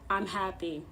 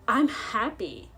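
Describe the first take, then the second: First: It is said flatly, without real joy. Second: It is said in a genuinely happy tone. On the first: The speaker calls it wrong. "Don't sound like" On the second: The speaker calls it right. "Sound like this instead"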